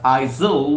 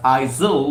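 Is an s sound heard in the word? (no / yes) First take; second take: yes; yes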